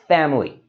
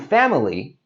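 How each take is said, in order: First: It is said with only two syllables. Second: It is said with three full syllables. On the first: "we can just say this as two syllables" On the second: "instead of saying family"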